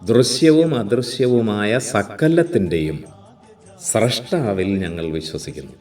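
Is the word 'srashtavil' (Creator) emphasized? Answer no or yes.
yes. The word for Creator is clearly emphasized. The speaker calls it right. "അവിടെ അപ്പോൾ ആ emphasis സ്രഷ്ടാവിനായി"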